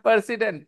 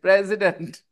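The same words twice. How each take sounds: First: It is said with a Bihari accent. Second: It is said in standard English pronunciation. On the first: The speaker calls it wrong. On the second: The speaker calls it right.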